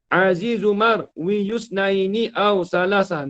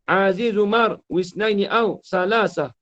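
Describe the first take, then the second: First: The ya after marwi is pronounced as yu. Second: The ya after marwi is dropped entirely. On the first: The poem's meter is broken. The speaker calls it wrong. "Kalau kita hidupkan ya" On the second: The poem's meter is kept. The speaker calls it right. "Dia kena baca ni"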